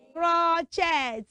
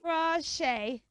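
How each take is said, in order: First: The final t is sounded. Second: The final t is silent. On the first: The speaker calls it wrong. "never say crochet" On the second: The speaker calls it right. "You should say crochet"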